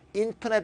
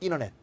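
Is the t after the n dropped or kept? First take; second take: kept; dropped. First: The t after the n is clearly pronounced. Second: The t after the n is dropped. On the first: The speaker calls it wrong. "아니고" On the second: The speaker calls it right. "N 다음에 T 발음이 죽고요"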